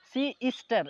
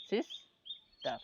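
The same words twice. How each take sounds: First: "সি স্টার" broken after সি, with স্টার run together; wrong syllable split. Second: "সিস্টার" slowly as sis, pause, tar; syllable by syllable. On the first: Teacher showing students the wrong split of "সি স্টার", broken after সি. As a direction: split "সি স্টার" as si, then star. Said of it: "এভাবে বলতে পারবেন না". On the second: Teacher demonstrating syllables to students, "সিস্টার" slowly split sis-tar. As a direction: break "সিস্টার" after the first s-i-s. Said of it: "এই একবারে এটা উচ্চারণ". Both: Shown as a demonstration.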